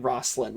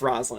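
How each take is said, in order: First: The middle consonant sounds like an s. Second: The middle consonant sounds like a z. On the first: The speaker calls it wrong. "you do hear people pronouncing it Roslyn, which no" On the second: The speaker calls it right. "it's Roslyn. ... like a Z"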